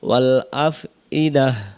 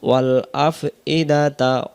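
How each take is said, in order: First: The word ends with an h sound. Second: The word ends with a t sound and vowel. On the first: The reciter stops to take a breath here. "দম ছেড়ে দিলে এভাবে" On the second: The reciter continues without taking a breath. "দম ছেড়ে না দেই তাহলে আমরা এভাবে বলবো"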